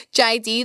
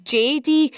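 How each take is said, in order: First: "J D" with the Scottish J, said like "jye dee"; "J D" in a Scottish accent, "jye dee"; Scottish letters. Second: "J D" with the English J, said "jay dee"; "J D" in an English accent, "jay dee"; English letters. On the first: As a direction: say "J D" the Glasgow way, "jye". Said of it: "J D or J D if you're English". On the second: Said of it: "'cause they say". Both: Shown as a demonstration.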